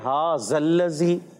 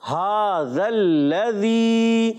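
First: The consonant is pronounced as a z sound. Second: The consonant is pronounced as a dh sound. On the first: The speaker calls it wrong. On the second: The speaker calls it right.

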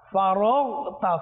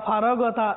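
First: The gh sound is held still and heavy. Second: The gh sound is not held still and heavy. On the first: The speaker calls it right. "নড়াচড়া করবে না, মুস্তালিয়া মোটাও হবে" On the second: The speaker calls it wrong. "ফারাগতা এভাবে বলবো না, এটা সম্পূর্ণ ভুল"

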